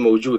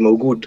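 First: The middle consonant is a soft j sound. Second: The middle consonant is a hard g sound. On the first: "in Sudan we just say "mawjud."" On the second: "in Masr, they're gonna say "mawgud.""

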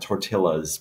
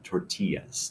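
First: The double L is said as an L sound. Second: The double L is said as a Y sound. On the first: The speaker calls it wrong. "So it's not tortillas" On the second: The speaker calls it right. "the LL in Spanish is a Y"

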